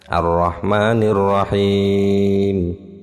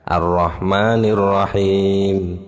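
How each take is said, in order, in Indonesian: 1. Vokal di Rahim dibaca agak panjang. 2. Vokal di Rahim dibaca sebentar.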